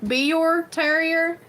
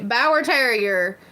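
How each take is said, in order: First: The first word sounds like 'bee-er'. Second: The first word rhymes with 'power'. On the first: The speaker calls it right. "the actual real word is Bior" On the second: The speaker calls it wrong. "we never say that word right"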